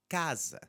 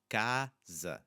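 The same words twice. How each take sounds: First: Said in the usual way. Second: Casa slowly split as CA, pause, za; casa with a gap between its syllables. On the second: Shown as a demonstration. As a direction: break casa in two, open first A. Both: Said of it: "The word has two syllables".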